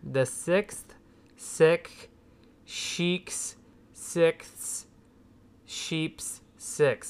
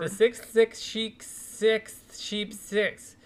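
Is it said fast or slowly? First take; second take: slowly; fast. First: It is said slowly. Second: It is said quickly.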